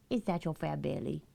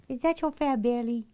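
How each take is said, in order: First: Said in the usual way. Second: Higher, louder cooing at the cat; baby talk to pet. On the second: Acted. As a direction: coo it like talking to a chubby pet. Talking baby talk to her cat.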